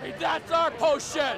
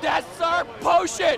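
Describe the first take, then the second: First: Raised, slow indignant claim; indignant protest. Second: Much higher, louder, slow insistence; louder insistent shout. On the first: Bickering over a potion, indignant raised voice. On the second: Repeating the claim to the potion, shouted slow. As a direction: shout it, dragging each word. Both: Acted.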